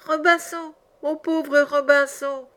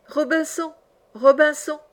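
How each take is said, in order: First: High, drawn-out woeful squawk; very strident, tearful parrot. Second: High, plaintive parrot cry; strident, tearful parrot. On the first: Abandoned parrot pitying its owner, very strident and tearful. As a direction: wail it slowly in a high parrot voice. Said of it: "plus stridente encore, et plus éplorée". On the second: Lost parrot calling its owner, strident and tearful. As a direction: call out high and woeful from afar. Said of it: "une voix stridente, éplorée". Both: A narrator's reading.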